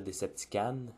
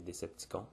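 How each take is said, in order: First: The final syllable sounds like 'can'. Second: The final syllable sounds like 'con'. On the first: The speaker calls it wrong. "en France, on est porté à dire Deceptican, mais c'est pas la bonne prononciation" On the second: The speaker calls it right. "c'est Decepticon ... le mot con à la fin"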